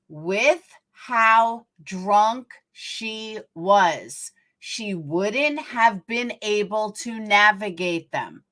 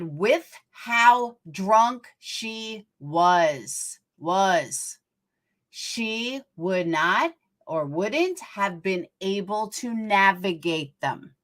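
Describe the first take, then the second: First: It is said at a normal pace. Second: It is said slowly.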